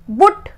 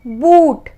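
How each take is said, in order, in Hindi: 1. स्वर छोटा है। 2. स्वर लंबा है। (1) "बुट नहीं बोला ना" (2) "तो बड़ा ऊ है"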